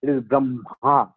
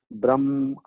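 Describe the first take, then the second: First: Slow Brahma with the ha breath on the ma; correct pronunciation. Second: Brahma said brəm, ma with no ha; wrong pronunciation. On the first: Teacher slowly modelling Brahma for the class. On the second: Teacher showing the class a mistaken Brahma. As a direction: clip Brahma to brəm, no breath. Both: Shown as a demonstration.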